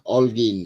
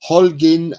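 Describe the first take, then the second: First: The name starts directly with a vowel sound. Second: The name starts with an audible H sound. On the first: The speaker calls it right. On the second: The speaker calls it wrong.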